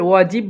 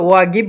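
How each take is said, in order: First: The middle consonant is a soft j sound. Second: The middle consonant is a hard g sound. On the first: "ওয়াজিব বলতে পারেন" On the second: "অথবা ওয়াগিব বলতে পারেন"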